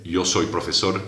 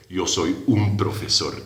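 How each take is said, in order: First: Said in the usual way. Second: Un said with weight and a falling tune; stress on un. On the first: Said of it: "No se dice". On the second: Shown as a demonstration. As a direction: lean on the little word un. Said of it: "se dice". (acento en "un", bien marcado)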